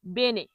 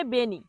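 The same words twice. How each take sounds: First: বেনে ending in a clear eh; correct pronunciation. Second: বেনি with a final ee sound; mispronounced Italian. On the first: Teacher giving learners the right Italian word, correctly pronounced. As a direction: say বেনে with -ne, not -ni. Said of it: "কি বলতে হবে". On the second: Teacher showing learners a common mistake, mispronounced. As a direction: say বেনি, ending in -ni instead of -ne. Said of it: "ভুল উচ্চারণ করে তখন কি বলে". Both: Shown as a demonstration.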